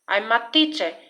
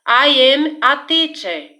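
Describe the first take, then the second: First: I am is shortened into one syllable. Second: I am is said as two full words.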